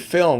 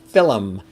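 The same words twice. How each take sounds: First: The word is said with one syllable. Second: The word is said with two syllables. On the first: "as opposed to film" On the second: "the Irish uh, Gaelic way of saying film"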